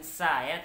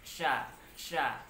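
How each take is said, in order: First: The 's' and 'ya' are said as separate sounds. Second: The syllable starts with one blended 'sh' sound. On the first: The speaker calls it wrong. "bukan sa ya" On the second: The speaker calls it right. "tapi sya sya"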